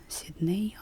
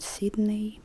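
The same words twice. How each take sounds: First: "Sydney" as the suggested textbook reading, ending on a rise; suggested stress. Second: "Sydney" as the teacher reads it, long first vowel; own reading. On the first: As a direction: say "Sydney" with a clear ey ending, rising. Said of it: "suggested Sydney". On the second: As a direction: say "Sydney" with a drawn-out SEED at the start. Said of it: "I read Sydney". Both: Shown as a demonstration.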